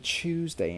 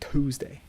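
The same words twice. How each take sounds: First: The word is said in a British accent. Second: The word is said in an American accent. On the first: This is how the speaker talked years ago. "I don't say Tuesday anymore like I used to" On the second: This is how the speaker talks now. "I say Tuesday"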